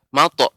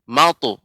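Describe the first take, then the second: First: The vowel after m is a plain o. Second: The vowel after m glides like au. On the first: The speaker calls it wrong. "pengucapannya tidak mato" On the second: The speaker calls it right. "akan tapi mautu"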